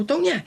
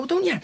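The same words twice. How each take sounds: First: Sudden high, loud mocking threat; a retold thug's high taunt; retold menacing snarl. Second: High, loud sneering threat; a thug's high mocking taunt retold; retold menacing snarl. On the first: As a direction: throw it back at him, louder and higher. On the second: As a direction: jeer it back at him, much higher and louder. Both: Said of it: "And I go".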